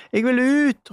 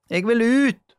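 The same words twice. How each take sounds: First: Higher, louder frantic cry; shouting again. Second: High, loud cry to get out; shouting. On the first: Julie shouting again to be let out, louder. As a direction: yell it out even higher. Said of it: "ropte Julie igjen". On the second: Julie shouting from the dark closet, loud. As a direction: yell it, wanting out. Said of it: "ropte Julie". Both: A narrator's reading.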